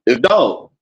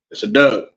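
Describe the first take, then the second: First: "Doug" for dog as said in Uptown west Baltimore. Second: "Doug" for dog, down-the-hill Baltimore style, lower. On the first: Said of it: "He's from Uptown, over west". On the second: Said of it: "I'm from down the hill". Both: Shown as a demonstration.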